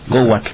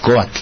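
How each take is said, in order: First: A w sound comes before the a. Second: No w sound comes before the a. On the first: This is how people in some villages say it. "en algunos lados, dicen cohuatl" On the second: This is the classical form. "en el náhuatl clásico sería coatl"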